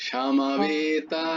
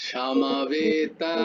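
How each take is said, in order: No difference in how they are said.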